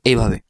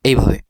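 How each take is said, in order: No difference in how they are said.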